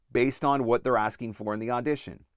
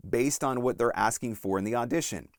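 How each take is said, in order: Both takes have the same delivery.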